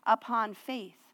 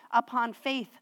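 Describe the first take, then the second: No difference in how they are said.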